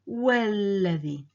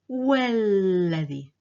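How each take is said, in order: No difference in how they are said.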